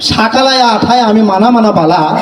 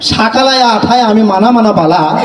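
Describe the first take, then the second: First: Nearly every vowel is changed to a. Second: The same.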